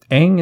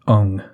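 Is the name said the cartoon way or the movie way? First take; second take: cartoon; movie. First: The name is said the cartoon way. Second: The name is said the movie way. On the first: The speaker calls it right. "Aang is his name in the cartoon" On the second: The speaker calls it wrong. "pronounces it Ung in the movie"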